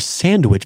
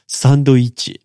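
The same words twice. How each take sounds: First: It is said with English pronunciation. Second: It is said with Japanese katakana pronunciation. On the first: "sandwich becomes" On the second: "becomes sandwich"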